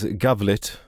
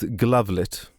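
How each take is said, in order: First: The name begins with a 'Ga' sound. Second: The name begins with a 'Gla' sound. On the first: The speaker calls it wrong. "as Gavlit for some reason" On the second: The speaker calls it right. "I mispronounced Glavlit"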